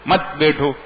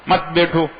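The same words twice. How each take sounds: Both takes have the same delivery.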